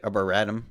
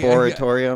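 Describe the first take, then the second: First: The word ends with the sounds 'etum'. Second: The word ends with the sounds 'etorium'. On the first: The speaker calls it right. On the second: The speaker calls it wrong.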